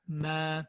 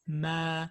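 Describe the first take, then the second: The two takes are said the same way.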